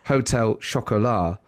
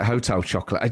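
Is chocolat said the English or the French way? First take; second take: French; English. First: Chocolat is said with a French pronunciation. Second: Chocolat is said like the English word chocolate. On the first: This feels awkward next to an English word. "it doesn't feel right to go hotel chocolat" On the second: This is the everyday way the speaker calls it. "I still call it hotel chocolate"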